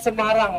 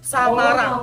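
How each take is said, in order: First: The first syllable is said with a weak e. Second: The first syllable is said with an open a. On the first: This is how the name is said today. "bukan Semarang" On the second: This is how the name was said in colonial times. "itu adalah pelafalan kota Semarang zaman dulu"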